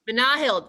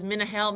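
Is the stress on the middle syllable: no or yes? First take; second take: yes; no. First: The stress is on the middle syllable. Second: The stress is not on the middle syllable. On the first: The speaker calls it right. "emphasis in the middle" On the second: The speaker calls it wrong. "see, that's bad"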